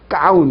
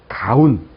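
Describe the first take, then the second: First: The first consonant is tense. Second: The first consonant is not tense. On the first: The speaker calls it wrong. "이렇게 하지 않는다는 얘기예요" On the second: The speaker calls it right. "이렇게 하시면 되고요"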